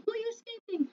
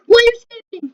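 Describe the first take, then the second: First: Said in the usual way. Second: Loud, high indignant yell; shout. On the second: Real, not acted. Player yelling at a fleeing character, loud demand. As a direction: yell the question at the runaway.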